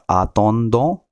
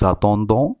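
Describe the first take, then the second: First: It starts on a plain vowel, no z. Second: It starts with a linked z sound. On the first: The speaker calls it wrong. "not attendons" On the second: The speaker calls it right. "The sound comes za, ... it is attendons"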